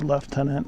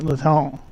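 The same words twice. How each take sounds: First: It is said with a British accent. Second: It is said with a French accent. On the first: "British people say" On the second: "French people apparently say"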